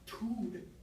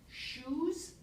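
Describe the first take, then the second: First: The word begins with a t sound. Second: The word begins with a sh sound. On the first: This is a young child's simplified form. "going from sh to t" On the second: This is the adult form of the word. "shoes becomes tood"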